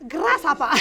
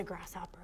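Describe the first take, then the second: First: Martial-arts movie Asian accent, played for laughs; mock Asian accent. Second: Said in the usual way. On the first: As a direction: put on a playful Asian accent. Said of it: "Asian accent thing happening". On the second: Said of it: "I have to say it with that sort of".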